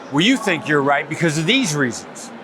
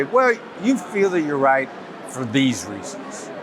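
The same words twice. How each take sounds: First: Dismissive, as if talking to someone stupid; belittling, judgmental tone; condescending. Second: Slow, careful tone, just trying to understand; unhurried, neutral and open-minded; understanding, non-judgmental. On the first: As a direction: let the tone say you think they're wrong. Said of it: "tone of voice tells you that I think you're stupid". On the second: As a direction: take no side, slowly feel out their view. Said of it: "I'm just trying to understand". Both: Shown as a demonstration.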